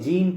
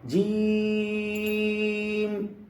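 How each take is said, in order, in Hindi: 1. स्वर को छोटा रखा जाता है। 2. स्वर को लंबा खींचा जाता है।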